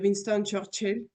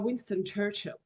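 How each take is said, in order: First: The name is said with a French accent. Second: The name is said with an English accent. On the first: The speaker calls it right. "les francophones préfèrent franconiser les noms propres" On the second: The speaker calls it wrong. "c'est pas Winston Churchill"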